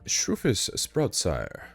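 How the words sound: The name is said in a grand, regal manner.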